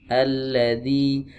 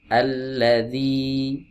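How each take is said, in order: No difference in how they are said.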